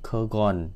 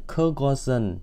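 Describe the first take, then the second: First: It is shortened to two syllables. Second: All three syllables are said in full. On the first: This is the form used in conversation. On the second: This is the form used in writing.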